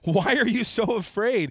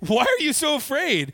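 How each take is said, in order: First: It is said in a plain, serious tone. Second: It is said with an amused, comic tone.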